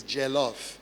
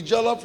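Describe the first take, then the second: First: "jollof" said lower and softer, let down; disappointing "jollof". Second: Said in the usual way. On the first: Shown as a demonstration. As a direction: drop "jollof" low and quiet as a letdown. Disappointing version of the praised dish.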